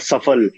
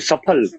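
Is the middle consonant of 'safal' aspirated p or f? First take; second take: f; aspirated p. First: The middle consonant is a plain f sound. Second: The middle consonant is an aspirated p sound. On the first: The everyday pronunciation most actors now use. "सारे actors फिर को फिर बोलते हैं" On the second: The traditional pronunciation a purist insists on. "It should be सफल"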